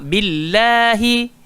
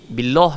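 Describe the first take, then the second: First: The word ends on a vowel, final vowel pronounced. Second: The word ends on a consonant, final vowel dropped. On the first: The speaker calls it right. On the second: The speaker calls it wrong.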